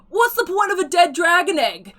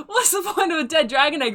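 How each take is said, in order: First: Loud, much higher mock Cockney heckle; terrible Cockney accent. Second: Mock Cockney shout through laughter; laughing bad Cockney. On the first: Heckler in the crowd shouting at the auctioneer in bad Cockney. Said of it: "a terrible, not even close to Cockney accent". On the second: Heckler redoing the Cockney jeer while laughing. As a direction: try the heckle again, giggling. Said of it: "they kinda shout out".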